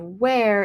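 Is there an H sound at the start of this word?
no. The word starts with a plain W sound. "instead of where"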